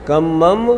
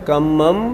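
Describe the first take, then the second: The two takes are said the same way.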